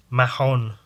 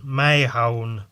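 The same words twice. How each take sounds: First: "Mahon" as ma-HON, short "ma" first; trying a pronunciation. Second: "Mahon" as MAY-hone, drawn out; trying a pronunciation. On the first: Unsure reader sounding out the artist's surname, "Mahon" as ma-HON. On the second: Unsure reader sounding out the artist's surname, "Mahon" as MAY-hone. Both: Real, not acted.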